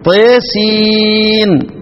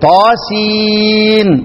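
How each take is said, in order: First: The vowel after T is tilted toward e. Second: The vowel after T is an open a.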